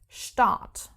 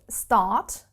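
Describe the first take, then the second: First: The word begins with an 'sht' sound. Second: The word begins with a plain 'st' sound. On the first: "but pronounced Start" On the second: "let's take the word start"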